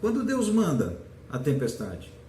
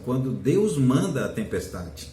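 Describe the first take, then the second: First: It is said as a puzzled question. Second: It is said as a forceful exclamation.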